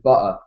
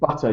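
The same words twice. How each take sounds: First: The T in the middle is dropped. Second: The T in the middle is clearly pronounced. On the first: "we drop the T's in words" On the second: "instead of saying butter"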